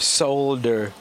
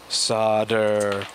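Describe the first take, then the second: First: The word is said with an L sound. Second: The word is said without an L sound. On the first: This is the way the audience prefers. "I can't say solder, it just sounds like such a terrible word" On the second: This is the speaker's own habitual way. "you guys hate when I say solder"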